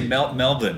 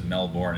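First: Melbourne is said with an Australian pronunciation. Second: Melbourne is said with a non-Australian pronunciation. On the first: "He used to get the Australian pronunciation though" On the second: "everybody else says Melbourne"

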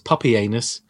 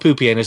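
First: The first syllable sounds like 'pup'. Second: The first syllable sounds like 'poo'. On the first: "Maybe it's puppy anus" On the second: "maybe it's not poopy anus"

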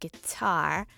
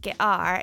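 First: The t in 'guitar' is a clear t. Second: The t in 'guitar' is a glottal stop. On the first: The speaker calls it right. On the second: The speaker calls it wrong.

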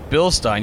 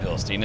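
First: The ending sounds like 'stein' in 'beer stein'. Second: The ending does not sound like 'stein'. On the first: The speaker calls it right. "it's Bilstein. You have to think of it like Beerstein" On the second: The speaker calls it wrong. "It's not Bilstein"

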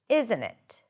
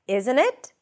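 First: The voice falls at the end. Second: The voice rises at the end. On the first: "Or falling" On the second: "Could be either rising"

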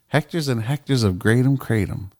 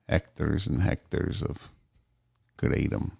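First: It is said in the speaker's ordinary accent. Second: It is said in a put-on Mexican accent.

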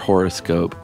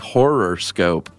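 First: The word begins with a plain 'horo' sound. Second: The word begins like the word 'horror'.

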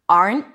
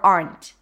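First: The final T is held and not released. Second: The final T is released with a pop.

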